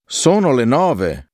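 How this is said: It is said as a surprised exclamation. It expresses surprise at the fact.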